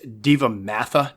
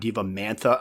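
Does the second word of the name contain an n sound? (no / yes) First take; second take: no; yes. First: The second word has no n sound. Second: The second word has an n sound. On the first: The speaker calls it right. "It's Diva Matha" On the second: The speaker calls it wrong. "not Diva Mantha. ... I don't know why I put the N in there"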